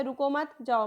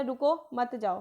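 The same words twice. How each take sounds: First: "रुको मत" run together, short break, then "जाओ"; group "रुको मत" as one phrase, set "जाओ" apart; pause after मत. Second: "रुको" set apart, then "मत जाओ" together; pause after रुको. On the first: Teacher showing the "go" reading of an ambiguous sentence, pause after "मत". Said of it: "एक तरफ तो वो बोल रहा है कि आप जाओ". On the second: Teacher showing the "stay" reading of an ambiguous sentence, pause after "रुको". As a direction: break after "रुको", run "मत जाओ" as one phrase. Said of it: "एक तरफ कह रहा है कि नहीं रुक जाओ". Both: Shown as a demonstration.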